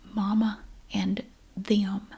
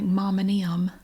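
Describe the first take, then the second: First: Each word is said fully and separately. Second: The words blur together into 'Mama Nim'.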